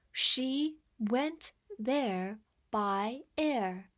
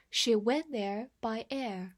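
First: Very slow, drawn-out model sentence; slow reading. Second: Said in the usual way. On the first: Shown as a demonstration. Teacher reads slowly so the class can repeat, very slow. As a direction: stretch every word for learners. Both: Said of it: "我们慢慢来读".

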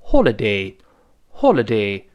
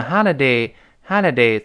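First: British "holiday" with a rounded o in the first syllable; British rounded-o "holiday", twice; British pronunciation. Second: American "holiday" with an open "ah" first vowel; American open-a "holiday", twice; American pronunciation. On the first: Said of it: "英式发音当中". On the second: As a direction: say "holiday" the American way, as "hah-liday". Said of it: "美音呢，觉得费劲". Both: Shown as a demonstration.

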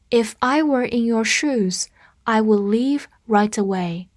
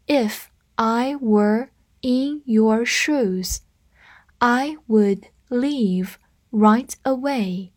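First: Said in the usual way. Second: Slow, evenly spaced words; slow read-through. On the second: Shown as a demonstration. Teacher modelling a sentence pattern for learners, slow read-through. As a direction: take the sentence slowly, pausing between words. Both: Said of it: "我们慢读一遍".

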